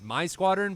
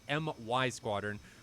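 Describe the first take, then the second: First: MY is said as the single word 'my'. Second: MY is spelled out as two separate letters. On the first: The speaker calls it wrong. "in the past, have pronounced it as My Squadron" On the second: The speaker calls it right. "I was corrected, and it is M Y Squadron"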